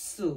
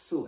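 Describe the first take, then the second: First: সু with a stopped ts onset; pressed "tsu". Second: সু with a light, thin s; thin tongue-tip "su". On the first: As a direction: say সু as "tsoo", with pressure. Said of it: "চাপ দিয়ে, খণ্ডত্ব দিয়ে". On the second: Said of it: "জিহ্বার আগা থেকে বলার চেষ্টা করব". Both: Shown as a demonstration.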